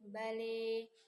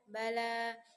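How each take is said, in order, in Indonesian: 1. Vokal akhir condong ke e. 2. Vokal akhir adalah a yang jelas dan terbuka. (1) "dibaca mendekati bale, bunyi akhirnya dicondongkan ke arah e" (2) "bunyi a di akhir lafaz jelas dan terbuka"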